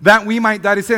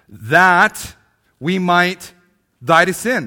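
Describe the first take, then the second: First: "That we might die to sin" in one loud, high, unbroken phrase; loud, continuous pulpit reading of "That we might die to sin"; flowing loud reading. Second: "That" loud, then "we might" and "die to sin" as separate phrases with pauses; slow pulpit reading of "That we might die to sin", each phrase set apart; slow emphatic reading. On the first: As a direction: say it all in one breath, full voice. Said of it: "That's the first one". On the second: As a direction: read it word by word, pausing after "That" and "might". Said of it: "notice here in verse twenty-four".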